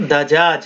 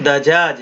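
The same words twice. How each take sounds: The two takes are said the same way.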